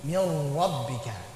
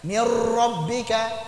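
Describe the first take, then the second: First: The r has a light, gentle trill. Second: The r is trilled heavily and roughly. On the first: The speaker calls it right. "Yang betul polanya tetap R tapi getarannya lembut" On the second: The speaker calls it wrong. "jangan berlebih-lebihan di dalam menampakkannya sehingga jadi kasar getarannya"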